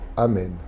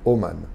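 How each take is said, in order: First: The vowels are a then e. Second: The vowels are o then a. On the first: "Tel quel" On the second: "Les hum, Thémanites, ils prononcent pareil"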